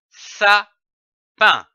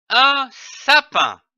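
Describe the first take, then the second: First: Said in the usual way. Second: "un sapin" said slowly and high, stress on "un"; "un sapin", lentement, en appuyant sur "un". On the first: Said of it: "L'association de ces deux syllabes donne le mot". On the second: Shown as a demonstration. ("un sapin" dit lentement, voix plus haute)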